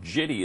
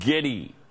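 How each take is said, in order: First: The word starts with a soft J sound. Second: The word starts with a hard G sound. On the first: The speaker calls it wrong. "he said jitty instead of giddy" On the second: The speaker calls it right. "It's a hard G sound"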